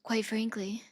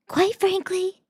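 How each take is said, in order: First: Soft, breathy attempt at Trump; half-hearted whispery Trump try; failed Trump voice. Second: Mock petulant child, very high-pitched; deliberately silly high little-kid impression; Trump. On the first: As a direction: try a quiet, unconvincing Trump impression. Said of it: "cannot do a Trump voice". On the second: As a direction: whine it high like a sulky kid. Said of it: "He sounds like a petulant child". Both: Shown as a demonstration.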